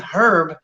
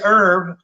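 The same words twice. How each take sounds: First: The word begins with an H sound. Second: The word begins without an H sound. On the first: It is a person's name. "pronounced with the H" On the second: It names the plant. "the silent H"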